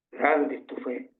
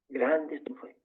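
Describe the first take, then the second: First: Said in the usual way. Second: Softer, tender echo of the praise; a softer, tender echo of Jesus' praise; tender repeat. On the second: Acted. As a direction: let it sink in gently, softer.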